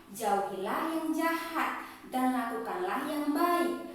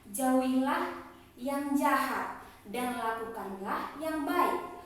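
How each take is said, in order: The two takes are said the same way.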